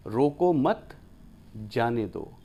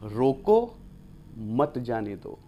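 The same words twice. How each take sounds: First: रोको मत together, pause, then जाने दो lower; pause after मत. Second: रोको alone, pause, then मत जाने दो together; pause after रोको. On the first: Teacher showing the opposite meaning, pausing after मत. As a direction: break after मत, not after रोको. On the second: Teacher showing how meaning flips, pausing after रोको. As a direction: break right after रोको, dropping on मत जाने दो. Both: Shown as a demonstration. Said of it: "अर्थ विपरीत हैं".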